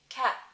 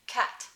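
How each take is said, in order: First: The final t has no audible release. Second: The final t is released with a puff of air. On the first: "I tend to not aspirate the final t, and I tend to put on a no audible release" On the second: "I would be aspirating the final t"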